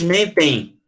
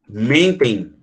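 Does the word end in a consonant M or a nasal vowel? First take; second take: consonant M; nasal vowel. First: The final M is said as a consonant. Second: The ending is said as a nasal vowel. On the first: The speaker calls it wrong. "Eu não falo" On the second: The speaker calls it right. "esse M aqui, ele tem som de vogal"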